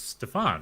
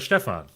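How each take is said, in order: First: It is said the American way, stressing the second syllable. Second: It is said the German way, stressing the first syllable.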